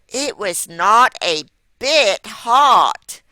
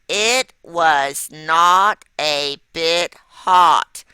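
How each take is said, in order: First: It is said with a lot of excitement. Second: It is said calmly, without excitement.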